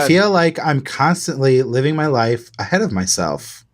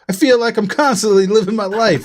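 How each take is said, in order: First: It is read in a plain voice. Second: It is read in a New York accent.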